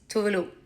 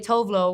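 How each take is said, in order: First: The name is said with Swedish pronunciation. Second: The name is said with English pronunciation. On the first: "The Swedish way is Tovelo" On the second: "Englishifying your name"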